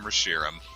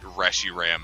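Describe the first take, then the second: First: The stress is not on the first syllable. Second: The stress is on the first syllable. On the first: The speaker calls it right. "we call it by its new proper name" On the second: The speaker calls it wrong. "how much I hate Reshiram as a pronunciation"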